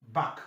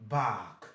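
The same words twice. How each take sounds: First: "back" with a very brief vowel; short A. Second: "back" stretched to a lower "baahk"; long A. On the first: Teacher quizzes on the contrast, short "back". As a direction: keep the A in "back" short and open. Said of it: "A C here gives you back". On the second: Teacher answers the quiz, long-vowel "baahk". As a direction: hold the open vowel of "back" like bark. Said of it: "Why this one is what?". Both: Shown as a demonstration.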